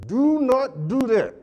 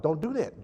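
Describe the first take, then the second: First: "do not do that" drawn out high and loud, every word hit; slow, loud emphatic warning. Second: Said in the usual way. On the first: Shown as a demonstration. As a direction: hammer "do not do that" slowly, as a stern warning.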